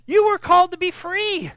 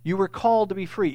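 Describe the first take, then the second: First: High, forceful delivery, leaning on YOU; emphatic YOU. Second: Said in the usual way. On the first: Shown as a demonstration. Preacher driving the verse home to listeners, emphatic YOU. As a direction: proclaim it, YOU hit hard and high. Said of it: "it is an emphatic". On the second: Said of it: "just trying to make it emphatic".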